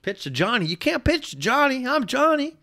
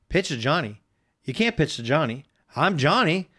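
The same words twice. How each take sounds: First: High-pitched mock-emotional protest; hammed-up kid. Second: Lightly voiced protesting kid, rising on the last words; mild disbelief as the young player; doubting kid. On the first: Host replays the kid's huddle protest for laughs, hammed-up high voice. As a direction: push the boy's plea way up high. Replays the tearjerker line, heightened. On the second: Host retells the kid's huddle protest to co-host, mildly incredulous. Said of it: "he sits there and he's like".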